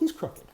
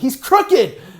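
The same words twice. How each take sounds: First: It sounds soft and gentle. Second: It sounds blunt and exasperated. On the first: "I said, well" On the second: "I didn't say it like that"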